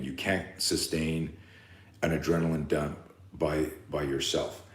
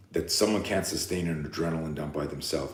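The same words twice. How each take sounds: First: Slower and softer, each word weighed; slow, deliberate repeat. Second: Said in the usual way. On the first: Shown as a demonstration. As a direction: lay out You can't sustain word by word. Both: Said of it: "I'll say that again".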